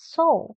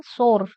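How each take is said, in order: First: "so" as soar with silent r; actual pronunciation. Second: "soar" with a sounded final r; Indian pronunciation. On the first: Teacher models soar for students, "so" with r dropped. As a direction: end "so" on an open vowel, no r. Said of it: "actual pronunciation is so". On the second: Teacher shows students the common Indian way, "soar" with clear r. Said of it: "We say Indian soar". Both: Shown as a demonstration.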